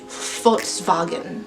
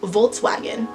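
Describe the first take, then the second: First: It is said with a German pronunciation. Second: It is said with an English pronunciation. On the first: "in the actual German pronunciation" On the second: "when you see the word Volkswagen"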